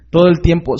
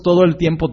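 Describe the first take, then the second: First: TODO punched higher and louder, falling at the end; emphatic repeat. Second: Said in the usual way. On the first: Real, not acted. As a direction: hammer home Todo el tiempo, weight on TODO.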